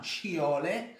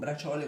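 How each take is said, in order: First: The middle consonant is an sh sound. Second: The middle consonant is a ch sound. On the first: "ma sciole, come le faccio io" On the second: "non braciole con la C"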